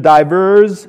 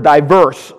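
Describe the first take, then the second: First: The word ends with a buzzing Z sound. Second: The word ends with a hissing S sound. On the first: "divers with a Z" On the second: "diverse with a hard S at the end"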